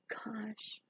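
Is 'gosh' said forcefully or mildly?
mildly. It is said mildly, without exasperated emphasis. The speaker does not really mean it. "I don't say it"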